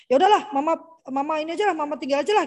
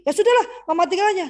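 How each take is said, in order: First: Put-on older child giving up. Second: Put-on higher, louder and fast careless child voice; younger child. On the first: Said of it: "anak saya kalau yang besar bilang". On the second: Younger son Deli brushing off his mother, quick high careless kid voice. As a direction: toss it off like a kid who doesn't care. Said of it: "Kalau Deli".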